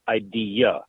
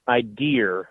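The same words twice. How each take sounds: First: It ends in a plain vowel without R. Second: It has an added R sound at the end.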